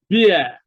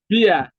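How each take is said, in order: First: The vowel sounds like the one in 'ear'. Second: The vowel sounds like the one in 'ear'.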